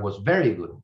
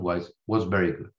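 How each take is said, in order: First: It is said in a happy, enthusiastic tone. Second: It is said in an unhappy, unenthusiastic tone. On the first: The speaker was genuinely pleased with the service. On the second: The speaker was not really pleased with the service.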